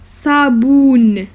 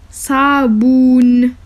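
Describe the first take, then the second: No difference in how they are said.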